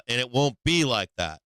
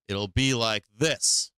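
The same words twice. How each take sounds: First: Said in the usual way. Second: Drawn out slowly as the right way; slowed demo. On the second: Shown as a demonstration. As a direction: stretch it slowly, showing how it goes.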